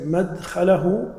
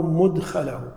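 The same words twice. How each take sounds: First: مدخله said "madkhalahu", with a after the mim; slow "madkhalahu", opening on "mad"; fatha on the mim. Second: مدخله said "mudkhalahu", with u after the mim; rounded first vowel in مدخله; damma on the mim. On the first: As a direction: open first vowel in مدخله. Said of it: "بعض العلماء ضبط بالفتح". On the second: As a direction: say "mudkhalahu", opening on "mud". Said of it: "بعضهم ضبطها بالضم". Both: Shown as a demonstration.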